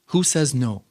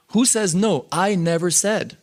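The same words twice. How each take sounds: First: Dismissive question, barely raised; mild retort. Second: Higher challenging question; defiant retort. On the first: Quoting the guru brushing off doubters, a mild retort. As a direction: shrug it off lightly. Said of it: "but here he was angry". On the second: Quoting the guru challenging his disciples, higher and defiant. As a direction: throw the question back defiantly. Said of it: "And then he says". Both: Retold or imitated.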